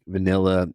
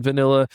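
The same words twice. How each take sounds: First: Said in the usual way. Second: Vanilla punched higher and louder; embarrassed emphasis on vanilla; stress on vanilla. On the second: Real, not acted. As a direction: land the word vanilla hard.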